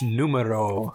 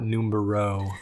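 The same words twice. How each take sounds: First: The word has no B sound in it. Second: The word has a B sound in it. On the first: The speaker calls it right. "No B in that word in Spanish" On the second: The speaker calls it wrong. "Not numero"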